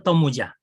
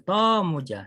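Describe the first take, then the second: First: The first vowel is short. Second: The first vowel is lengthened. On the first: The speaker calls it wrong. "it's not a Tomuja. Tomuja has no meaning at all" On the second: The speaker calls it right. "to has a meaning of the lengthy of the to"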